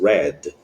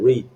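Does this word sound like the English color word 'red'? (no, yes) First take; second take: yes; no. First: It sounds like the color word red. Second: It does not sound like the color word red. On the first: The action happened in the past. "Aqui é similar, semelhante, né? A cor vermelha" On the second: The action happens in the present. "aqui no presente é read"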